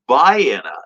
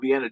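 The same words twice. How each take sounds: First: It is pronounced the local Illinois way. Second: It is pronounced like the European city. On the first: The speaker calls it right. "but it is pronounced Vienna" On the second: The speaker calls it wrong. "like you know Vienna, Germany"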